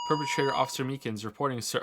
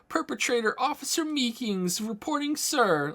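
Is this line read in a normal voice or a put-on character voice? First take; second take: normal; character voice. First: It is read in the speaker's ordinary voice. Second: It is read in a put-on cartoon character voice.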